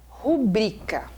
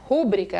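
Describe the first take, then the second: First: The stress is on the second syllable. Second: The stress is on the first syllable. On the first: The speaker calls it right. "ela é rubrica" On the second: The speaker calls it wrong. "ela seria proparoxítona"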